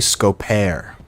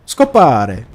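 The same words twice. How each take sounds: First: "scopare" read English-style, as "sko-PAIR"; "scopare" with a silent final e; anglicized guess. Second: "Scopare" said Italian-style, as "sko-PAH-reh"; "Scopare" with an open ah and Italian r; Italian pronunciation. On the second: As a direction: sound the final e in "Scopare", with a tapped r. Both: Shown as a demonstration.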